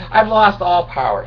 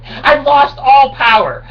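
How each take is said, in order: First: Said in the usual way. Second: High, loud, slow crying wail; hammed-up lament over lost power; mock wail. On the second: Wail then flat repeat.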